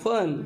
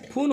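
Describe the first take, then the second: First: The vowel sounds like uh. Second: The vowel sounds like oo. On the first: The speaker calls it right. "अ आलाय" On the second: The speaker calls it wrong. "फून होत नाही"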